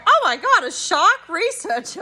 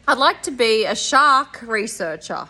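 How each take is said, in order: First: High, loud burst of delight on Oh my God, then settling; enthusiastic repeat. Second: Said in the usual way. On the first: Retold or imitated. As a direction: echo her dream back with real excitement. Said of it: "repeated it with a bit of enthusiasm". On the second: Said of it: "And she said".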